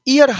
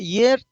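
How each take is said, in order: First: The word begins with a plain vowel sound. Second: The word begins with a y sound. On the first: The speaker calls it wrong. "हर कोई व्यक्ति पढ़ता है, ई य र, जो कि गलत हो जाता है, ई करता है" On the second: The speaker calls it right. "इसको ईयर पढ़ा जाता है"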